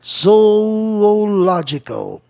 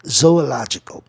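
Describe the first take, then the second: First: "Zoological" stretched very slowly, higher, stress on LO; slow-motion "Zoological", zo-o-LO-gi-cal; stressed syllable demonstrated. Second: Said in the usual way. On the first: Shown as a demonstration. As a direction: draw out "Zoological" to show each syllable. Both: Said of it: "vou buscar a sílaba tônica".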